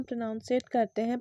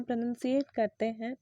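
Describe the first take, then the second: First: प्रोनाउंसिएट with an "ow" sound, pro-NOUN-si-ate; common mispronunciation. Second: प्रोनंसिएट with a short "uh", pro-NUN-si-ate; correct pronunciation. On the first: Teacher deliberately mispronounces for students: प्रोनाउंसिएट with "ow". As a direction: say प्रोनाउंसिएट the habitual wrong way, pro-nown. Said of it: "मैंने उससे कहा जानबूझकर". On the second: Teacher corrects herself for students: प्रोनंसिएट with short "uh". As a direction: say प्रोनंसिएट with no "ow" sound. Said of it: "ताकि आप दोनों में अंतर कर पाओ". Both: Shown as a demonstration.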